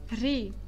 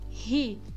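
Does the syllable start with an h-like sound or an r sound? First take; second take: r; h-like. First: The syllable starts with a true r sound. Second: The syllable starts with a breathy h-like sound. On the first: The speaker calls it right. "Essa pronúncia aqui deste R é ri" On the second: The speaker calls it wrong. "Muitas de vocês vão fazer a pronúncia aqui deste R como ri"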